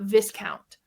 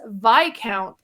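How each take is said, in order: First: The word is said just as it is spelled. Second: The word is not said as it is spelled. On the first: The speaker calls it wrong. "not Viscount" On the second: The speaker calls it right. "it's not spelt the way that it sounds"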